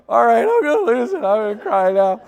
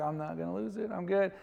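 First: High, loud, hammed-up giving in to tears; comic wail of losing composure; mock breakdown. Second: Retold composed self-assurance; contained, trying to convince yourself; holding it together. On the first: Pastor seeing his brother sobbing at the funeral, mock breakdown. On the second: Pastor telling himself he will not cry, holding it together.

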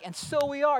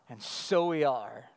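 First: "and so we are" pitched high and insistent; emphatic. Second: Said in the usual way. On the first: Acted. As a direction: drive home "and so we are" emphatically. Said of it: "John is emphatic".

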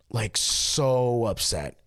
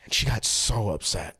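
First: "so upset" slowed, leaning hard on "so"; drawn-out "so" for emphasis; stress on so. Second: Said in the usual way. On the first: Shown as a demonstration. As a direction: stretch out "so" to drive it home.

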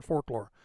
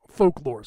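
First: "folklore" said as "forklore", with an R for the L; repeating the slip. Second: Said in the usual way. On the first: Shown as a demonstration. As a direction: mimic your slip on "folklore": "fork-lore". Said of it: "I said folklore. It was an accent coming out". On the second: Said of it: "sorry, I said folklore".

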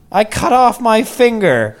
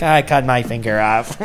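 First: High, slow mock child voice; plaintive kid announcing an injury, imitated; little boy. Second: Lightly imitated child; a hint of a six-year-old; little boy. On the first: Six-year-old son telling his dad, little boy voice. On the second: Six-year-old son telling his dad, lightly voiced little boy. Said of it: "six years old".

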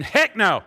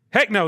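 First: Loud high Texan heck no. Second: Said in the usual way. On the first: Pretend. Preacher translating Greek into Texan, loud. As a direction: punch it out like a Texan. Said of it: "we would translate in Texan".

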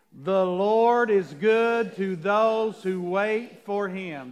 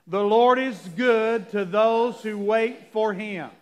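First: Very slow, drawn-out reading; take our time. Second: Slow, measured scripture reading; unison reading. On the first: Shown as a demonstration. Pastor restarting the verse with the church, very slowly. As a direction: stretch "The Lord is good to those who wait" out slowly. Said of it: "We're gonna take our time". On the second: Real, not acted. Pastor reading scripture with the church, slow and even. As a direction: read together, slowly and carefully. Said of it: "Let's read it together".

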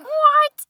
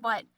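First: High, loud mock-shocked yelp; shocked friend. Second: Said in the usual way. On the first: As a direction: imitate a friend's stunned outburst. Friend shocked by puppy news.

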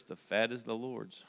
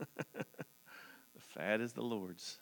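First: Said in the usual way. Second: Slow, laughing repeat of the verse. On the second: Real, not acted. Preacher laughing at his favorite verse, slowly. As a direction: chuckle through it, drawn out.

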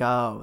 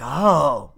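First: "Oh" lower and softer, deflated; mild letdown. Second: "Oh" as a small sound of wonder; mildly impressed. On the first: Visitor twenty minutes into the museum, mildly deflated. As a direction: let the oh sink with fading interest. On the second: Visitor just arriving at an art museum, mildly impressed. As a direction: let out an interested oh. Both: Acted.

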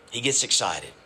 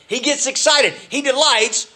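First: Low and soft, almost to himself; quiet. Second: Lifted high with excitement; excited. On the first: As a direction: let it fall away low and hushed. Preacher repeating line, dropped low. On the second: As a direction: let the joy jump up in pitch. Preacher describing God's joy. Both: Acted.

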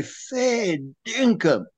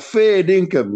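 First: Drawn-out, higher, slow "Fair dinkum", the dinkum falling; incredulous fair dinkum. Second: "Fair dinkum" higher and louder, stress on "Fair"; punchy fair dinkum. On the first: Mock Aussie mate doubting a fish story, slow incredulous. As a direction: stretch "Fair dinkum" out high and slow in mild disbelief. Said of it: "he'll say". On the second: Retelling the Aussie reaction, quick emphatic exclamation. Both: Retold or imitated.

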